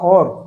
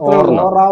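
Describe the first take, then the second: First: The word ends on the r sound. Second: The word ends with an added vowel after r. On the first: The speaker calls it right. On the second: The speaker calls it wrong. "ഓറ വേണ്ട"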